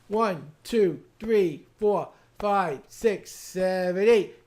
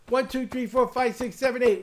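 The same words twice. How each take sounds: First: The count is somewhat faster than before. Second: The count is as fast as possible.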